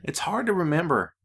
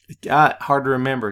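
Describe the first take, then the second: First: Said in the usual way. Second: Got hit louder and falling; stress on got. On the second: Shown as a demonstration. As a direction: lean on got to land the pun. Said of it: "Did you catch that?".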